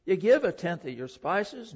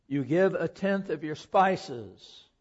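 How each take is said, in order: First: Said in the usual way. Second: Slow, with "give" stressed and falling; slowed for emphasis. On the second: Shown as a demonstration. Preacher pauses the reading to dwell on the verse, slow and stressed. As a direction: stop and weigh each word of "You give a tenth of your spices". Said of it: "let me stop there for just a minute".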